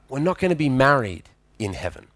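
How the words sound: The voice sounds sad and disappointed. The speaker regrets the loss. The speaker calls it right. "And that made her sad"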